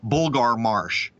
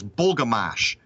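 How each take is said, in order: First: The R sounds are pronounced. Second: The R sounds are dropped. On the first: This is how an outsider from the West Coast would say it. "someone from the West Coast who wants to pronounce it right" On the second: This is how locals on the East Coast say it. "Here, they pronounce it as Bulgamash"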